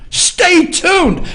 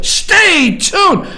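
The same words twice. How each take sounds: First: Mocking media tease. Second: Mock announcer shout. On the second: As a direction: bellow "Stay tuned" like a hyped news teaser. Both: Shown as a demonstration. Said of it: "That's what the media wants you to do".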